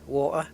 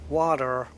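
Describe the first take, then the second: First: It is said with a British accent, no T. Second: It is said with an American accent, ending in er.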